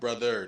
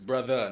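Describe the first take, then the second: First: The final R is pronounced as a hard R. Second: The final R is dropped, ending in an uh. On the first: The speaker calls it wrong. "not brother" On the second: The speaker calls it right. "It's brother, No hard R"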